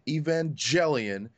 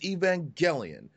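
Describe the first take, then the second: First: The name gets a common English-style pronunciation. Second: The name gets the pronunciation used in the show. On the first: The speaker calls it wrong. "It is not Evangelion" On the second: The speaker calls it right. "because that's how it was presented in the show"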